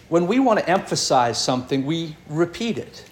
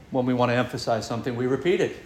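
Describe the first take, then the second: First: Said in the usual way. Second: Lower, softer and fast, as a repeat; quieter repeat. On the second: Shown as a demonstration. Preacher repeats the point to the congregation, lower, softer and fast. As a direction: drop the voice and rush the echo.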